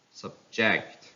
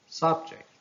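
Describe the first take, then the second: First: "subject" as sub-JECT; stress on second syllable. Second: "subject" as SUB-ject, high start; stress on first syllable. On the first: Teacher reading a verb, "subject" stressed on JECT. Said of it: "stress falls on the second syllable". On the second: Teacher reading a noun, "subject" stressed on SUB. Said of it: "stress on the first syllable". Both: Shown as a demonstration.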